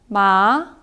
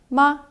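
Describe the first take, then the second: First: The pitch rises from middle to high. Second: The pitch is short, light and relaxed. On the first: "이성은 올라가는 소리입니다" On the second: "경성은 가벼울 경자를 써서 그냥 편하게 이렇게 발음하시면 되는데요"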